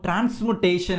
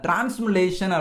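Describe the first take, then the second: First: The consonant after 'transmu' is a T sound. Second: The consonant after 'transmu' is an L sound. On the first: The speaker calls it right. "ஒரு technical word இருக்கும்" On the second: The speaker calls it wrong. "அதை தப்பா pronounce பண்ணியிருந்திருப்பேன்"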